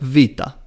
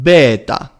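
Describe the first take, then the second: First: It is said in the modern Greek way. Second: It is said in the ancient Greek way.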